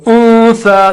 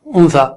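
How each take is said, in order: First: اونسا with a long nasal hold before سا; slow, hummed n in اونسا; clear ghunna. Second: اونسا said short, the n squashed away; quick اونسا without any nasal hum; no ghunna. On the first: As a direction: stretch the hidden n of اونسا through the nose. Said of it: "تو آپ کو clear معلوم ہے". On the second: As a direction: drop the nasal hold in اونسا. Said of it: "کہ غنہ نہ کریں گے آپ". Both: Shown as a demonstration.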